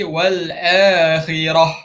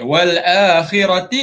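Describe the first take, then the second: First: The last word ends with a soft 'h' sound. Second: The last word ends with a 'ti' sound. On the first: The reader stops at this word. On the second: The reading continues past this word.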